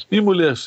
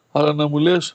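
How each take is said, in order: First: Μη punched high with a falling close; forbidding emphasis on Μη; stress on Μη. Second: Λες lifted in an open, inviting rise; gentle rise on λες. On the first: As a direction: hit the word Μη hard, the rest drops away. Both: Shown as a demonstration. Contrast of forbidden and wished words.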